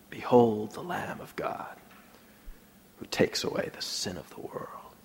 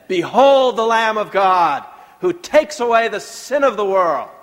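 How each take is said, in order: First: It is said in a whisper. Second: It is said in a normal voice.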